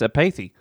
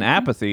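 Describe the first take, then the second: First: The name is pronounced an unusual, foreign-sounding way. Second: The name is pronounced the ordinary way. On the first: This is a special name, not the usual word. "I'll just pronounce it weird" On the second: This is the usual word. "this kid isn't Apathy"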